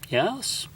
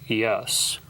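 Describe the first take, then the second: First: The yes sounds hesitant and doubtful. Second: The yes sounds strong and emphatic. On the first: There may not really be a headache. "I'm not even sure he has a headache" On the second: The headache is real and bad. "That's a different kind of yes"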